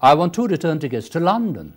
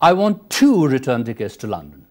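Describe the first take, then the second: First: The word London carries the strongest stress. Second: The word two carries the strongest stress. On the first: The destination is what matters. "it is the place that is important" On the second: The speaker wants two tickets, not one. "In the first, you are stressing two"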